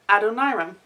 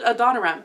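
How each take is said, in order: First: The name begins like Adonai. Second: The name does not begin like Adonai. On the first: The speaker calls it right. "but Adoniram. Hmm. As in Adonai" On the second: The speaker calls it wrong. "I've always called it Adoniram"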